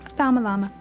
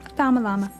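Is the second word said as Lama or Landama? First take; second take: Lama; Lama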